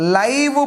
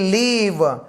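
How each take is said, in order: First: The vowel is an 'eye' sound. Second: The vowel is a short 'i' sound. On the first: It means being alive. "ఇక్కడ లైవ్ bird అంటున్నా" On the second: It means residing somewhere. "ఇక్కడ ఐ ఎల్ఐవిఈ లీవ్, లీవ్ అని అంటున్నా"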